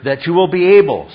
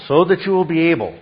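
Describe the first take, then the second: First: First take louder, stress on be; emphatic repetition. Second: Said in the usual way. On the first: Shown as a demonstration. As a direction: lean hard into "be able" the first time. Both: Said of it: "Twice he focuses".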